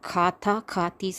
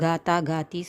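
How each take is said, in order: First: The first consonant has a puff of breath. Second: The first consonant has no puff of breath. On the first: The speaker calls it right. "சொல்லணும்" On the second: The speaker calls it wrong. "சொல்லக்கூடாது"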